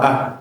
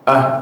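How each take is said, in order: Both takes have the same delivery.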